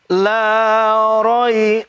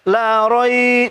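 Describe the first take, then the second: First: "roi" kept short, one beat. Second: "roi" stretched too long, slowly; drawn-out roi, wrong. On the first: Teacher models the correct reading for students, short "roi". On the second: Teacher warns students against a long reading, stretched "roi". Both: Shown as a demonstration. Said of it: "jangan panjang".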